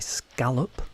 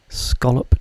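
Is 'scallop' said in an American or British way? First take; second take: American; British. First: The word is said in an American way. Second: The word is said in a British way. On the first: The speaker calls it wrong. "some Americans will maybe want to say scallop" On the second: The speaker calls it right. "that is the correct way of pronouncing the word scallop"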